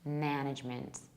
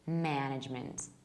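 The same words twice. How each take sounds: Both takes have the same delivery.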